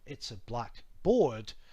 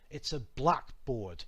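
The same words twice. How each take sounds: First: The stress falls on board. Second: The stress falls on black. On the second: "with the accent denoting stress"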